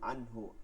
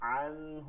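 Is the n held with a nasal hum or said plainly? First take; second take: plainly; nasal hum. First: The n is said crisply without a nasal hum. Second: The n is held with a nasal hum. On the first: The speaker calls it right. "গুন্না ছাড়া পড়তে হয়, স্পষ্ট করে পড়তে হয়।" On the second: The speaker calls it wrong. "আনহু বলা যাবে না"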